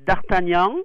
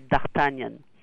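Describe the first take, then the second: First: The name is said with a French pronunciation. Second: The name is said with an American pronunciation. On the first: "The French way is D'Artagnan" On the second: "in America we say D'Artagnan"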